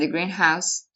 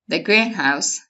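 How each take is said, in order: First: The stress falls on the word house. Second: The stress falls on the word green. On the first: It is a house painted green. "In the second one, well, human beings and flowers can live together" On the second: It is a glass building for growing plants. "In the first one, you have flowers"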